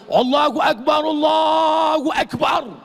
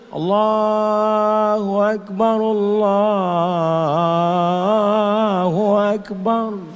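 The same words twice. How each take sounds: First: It is said fast and forcefully. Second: It is said slowly and softly.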